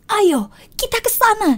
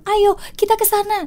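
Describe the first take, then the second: First: It is said with lively, heartfelt expression. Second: It is said flatly, with little feeling. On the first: The speaker truly feels the words. The speaker calls it right. "dibanding yang sebelumnya" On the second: The speaker does not feel the words. The speaker calls it wrong. "itu kurang penghayatan"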